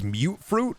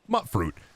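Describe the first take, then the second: First: The first vowel sounds like 'you', as in 'cute'. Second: The first vowel is short, as in 'cut'. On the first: The speaker calls it right. "It's mute fruit because it's mutant fruit" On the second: The speaker calls it wrong. "for years, I was just pronouncing it wrong"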